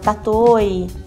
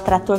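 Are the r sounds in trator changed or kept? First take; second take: changed; kept. First: The r sounds are dropped or turned into i. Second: Both r sounds are pronounced clearly. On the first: The speaker calls it wrong. "fala tatoi" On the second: The speaker calls it right. "em vez de falar trator"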